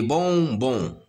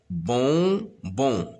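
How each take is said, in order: First: Said in the usual way. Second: "Bonbons" in two separated beats; stretched, segmented "Bonbons"; syllable by syllable. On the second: Shown as a demonstration. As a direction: sound out "Bonbons" as bon, pause, bon. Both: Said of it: "se compose de deux syllabes".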